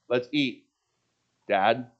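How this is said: It is said with a pause before "Dad".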